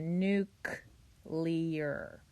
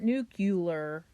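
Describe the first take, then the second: First: The second part is said as 'clear'. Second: The second part is said as 'cu-lar'. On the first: The speaker calls it right. "It is N U C, so nuclear" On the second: The speaker calls it wrong. "Not nuclear"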